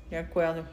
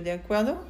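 First: "De acuerdo" kept low, without any rise; subdued agreement. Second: "¿de acuerdo?" rising sharply at the end; questioning rise. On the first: Friend agrees to the promise, "De acuerdo" low and settled. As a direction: answer "De acuerdo" as a settled statement. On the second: Girl asks her friend for a promise, questioning "acuerdo" with a rise. Asking for agreement, answered next line. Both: A narrator's reading.

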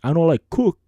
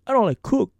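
First: Said in the usual way. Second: Emphatic high reading. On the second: Shown as a demonstration. Reading Brandon's short message aloud, emphatic and high. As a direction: read it high with an exclamation mark. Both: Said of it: "No, it's like".

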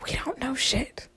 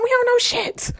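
First: Hushed unvoiced aside; whispered. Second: Said in the usual way. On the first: Shown as a demonstration. Telling listeners humans know nothing, whispered. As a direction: breathe it out in a hush.

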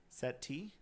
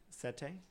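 First: "Settee" rhyming with "tea", rising; settee ending in "tee". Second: "Settee" rhyming with "say", softly rising; settee ending in "tay". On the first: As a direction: say "Settee" with a final TEE sound, questioning. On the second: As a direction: say "Settee" with a final TAY sound, questioning. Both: Shown as a demonstration.

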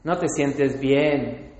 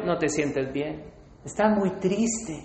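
First: Slow low tempter. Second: Low soft tempter. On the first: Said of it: "que Satanás te dice es". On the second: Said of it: "Y el tercero". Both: Retold or imitated.

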